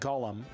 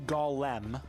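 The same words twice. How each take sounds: First: The word is said fast with reduced vowels. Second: The word is said slowly with full vowels.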